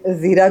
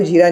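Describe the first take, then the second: First: Said in the usual way. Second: जीरा with a j sound in place of z; mispronounced जीरा. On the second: Shown as a demonstration. Reviewer mocking actors' Urdu diction, जीरा said with j for z. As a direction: say जीरा starting with a hard j, not z. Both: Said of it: "कोई जीरा को जीरा नहीं कहता".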